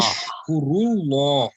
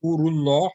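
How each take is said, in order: First: "Ushkurullah" starting on ush, drawn out slowly; order form with U. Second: "ashkurullah" starting on ash, no vav; short opening A. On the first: Teacher shows the plural order, "Ushkurullah" slow with opening U. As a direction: slowly stretch "Ushkurullah", rounded U at the front. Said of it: "here it's an order". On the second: Teacher contrasts first person with order, "ashkurullah" starting on A. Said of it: "ashkurullah without a vav". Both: Shown as a demonstration.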